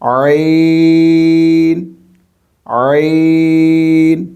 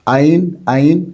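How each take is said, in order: First: The first sound comes from the middle throat. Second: The first sound is plain, without throat constriction. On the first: The speaker calls it right. "हलक के दरमियान वाले हिस्से से" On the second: The speaker calls it wrong. "गलत है"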